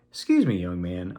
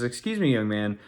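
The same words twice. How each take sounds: First: Said in the usual way. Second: Politely imitating wife, lifted on "Excuse me"; nice, polite. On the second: Wife politely approaches a kid in the parking lot, retold nicely. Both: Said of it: "I mean, she's nice".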